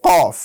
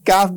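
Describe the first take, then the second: First: কফ heavy, from the back of the tongue; full, heavy কফ with a dark o; correct কফ. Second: কাফ with a light, open a; wrong thin কাফ, open a vowel; কাফ said light, not from the throat. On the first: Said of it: "বলতে হবে". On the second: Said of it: "কাফ বললে হবে না". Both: Shown as a demonstration.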